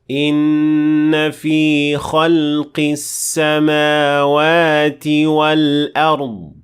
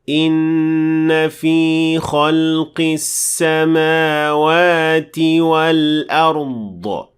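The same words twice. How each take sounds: First: The final d sound ends without any bounce. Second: The final d sound has an added echoing bounce. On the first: The speaker calls it right. "this is what it should sound like" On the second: The speaker calls it wrong. "That is not correct. You should not add the qalqala"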